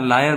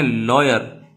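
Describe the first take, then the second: First: लायर with an ai sound, lie-er; लायर said like lie plus er; liar pronunciation. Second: लॉयर with an open aw, law-yer; लॉयर said with a broad aw sound; lawyer pronunciation. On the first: Teacher models लायर meaning a liar. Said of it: "लायर जो होता है". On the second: Teacher models लॉयर meaning advocate. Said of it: "पहले को आपको पढ़ना है". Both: Shown as a demonstration.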